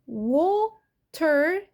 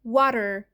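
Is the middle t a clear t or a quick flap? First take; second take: clear t; flap. First: The middle t is a clear, released t. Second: The middle t is a quick flap like d.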